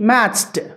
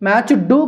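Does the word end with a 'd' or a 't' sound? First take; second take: t; d. First: The ending is pronounced as a 't' sound. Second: The ending is pronounced as a 'd' sound. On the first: The speaker calls it right. "టాలా చెప్పాలి" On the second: The speaker calls it wrong. "మ్యాచ్ డూ కాదండి"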